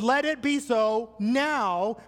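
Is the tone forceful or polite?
forceful. It is said in a firm, forceful tone. It is an urgent demand. The speaker calls it right. "That's not what Jesus was saying"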